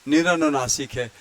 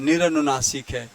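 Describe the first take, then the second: The two takes are said the same way.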